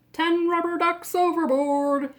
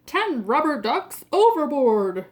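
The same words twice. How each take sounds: First: Loud, raised call across the deck; captain shouting. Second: Loud shout, hitting ten; captain shouting. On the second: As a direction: call it louder as the captain. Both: Acted. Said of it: "shouts the captain".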